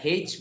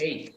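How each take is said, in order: First: The letter name starts with an h sound. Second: The letter name starts with a vowel sound. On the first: Some British speakers say it this way. The speaker calls it wrong. "কোনো কোনো British বা ব্রিটিশের কিছু অংশ তারা হেইচ বলে" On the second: Most speakers say it this way. The speaker calls it right. "আমরা এইচই বলবো, আমরা আর হেইচ বলবো না"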